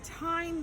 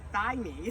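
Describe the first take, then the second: First: The word begins with a plain t sound. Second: The word begins with a th sound. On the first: The speaker calls it right. "it sounds the same" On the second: The speaker calls it wrong. "you'd want to say thyme"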